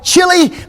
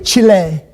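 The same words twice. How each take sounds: First: It is said the older, familiar way. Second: It is said the newer, native-sounding way. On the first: The speaker calls it wrong. "we used to call it" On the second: The speaker calls it right. "now you have to say it correctly"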